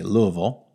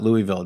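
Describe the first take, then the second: First: Louisville is pronounced the way locals say it. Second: Louisville is pronounced the way outsiders say it. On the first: The speaker calls it right. "They say Louisville" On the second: The speaker calls it wrong. "it's not Louisville"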